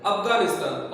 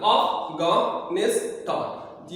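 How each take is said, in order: First: Said in the usual way. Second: Afghanistan very slowly, in four separate beats; syllable by syllable. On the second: Shown as a demonstration. Teacher counting syllables in Afghanistan, slowly divided. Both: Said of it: "इसमें चार syllable है".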